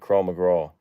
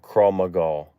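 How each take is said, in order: First: The second word sounds like 'McGraw'. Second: The second word sounds like 'Maga'. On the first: The speaker calls it wrong. "I'm saying it wrong" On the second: The speaker calls it right. "I always say McGraw because Tim McGraw, but Krav Maga"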